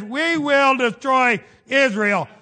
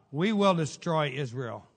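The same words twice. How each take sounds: First: Louder, slow, drawn-out threat; hammed-up declaration of war; mock menacing threat. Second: Said in the usual way. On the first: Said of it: "And then the next day he says". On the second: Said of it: "when he said this, and I read it".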